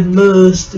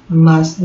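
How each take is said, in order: First: "must" with a closed, non-ah vowel; wrong vowel in must. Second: "Must" said with an open ah. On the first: Teacher showing what to avoid, closed vowel in "must". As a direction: mispronounce "must" with a tight uh. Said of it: "não é must". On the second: Teacher giving the right sound, open ah in "Must". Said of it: "eles têm som de A aberto". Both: Shown as a demonstration.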